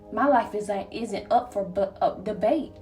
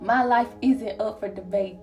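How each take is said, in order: First: It is said hesitantly, with stuttering and a filler. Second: It is said smoothly and confidently, without stumbling. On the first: The speaker calls it wrong. "How am I say that confident and stuttering?" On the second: The speaker calls it right. "There we go"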